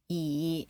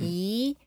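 First: The pitch dips down, then goes up. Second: The pitch goes up. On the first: "E is falling and rising" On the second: "E is rising"

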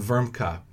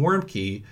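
First: The name is said with a German pronunciation. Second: The name is said with an English pronunciation. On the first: "as opposed to" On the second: "the common, local, anglicized pronunciation"

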